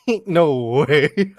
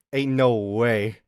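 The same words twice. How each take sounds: First: Drawn out, breaking into laughter; laughing disbelief. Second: Said in the usual way. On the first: Real, not acted. Streamer laughing at own chav attempt, slow and giggly. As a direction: say it slowly, cracking up. Repeats it cracking up.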